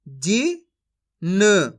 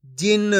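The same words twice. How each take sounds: First: जिन very slowly split as "जी ... न"; syllable by syllable. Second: Said in the usual way. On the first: Shown as a demonstration. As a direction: sound out both letters of जिन separately. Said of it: "एक अक्षर का उच्चारण करके". (जिन को तोड़कर, धीरे-धीरे) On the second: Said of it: "इनको आपस में लाके पढ़ देना है".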